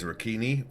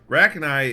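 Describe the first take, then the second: First: The word sounds like an Italian pasta name. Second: The word sounds harsh and intimidating. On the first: "I originally pronounced that as Ricchini or Riccini, like it was a pasta" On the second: "Rachni is definitely more uh, intimidating"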